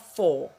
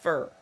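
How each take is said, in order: First: The word has a full, clear vowel. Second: The word has a short, reduced vowel. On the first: The speaker calls it wrong. "Ce n'est pas for" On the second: The speaker calls it right. "c'est fur"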